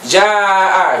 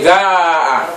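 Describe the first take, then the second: First: The first consonant is a j sound. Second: The first consonant is a hard g sound. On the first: The speaker calls it right. "jim bunyi begitu" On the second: The speaker calls it wrong. "Kita baca dengan dialek Mesir gaa. Oh, tak boleh"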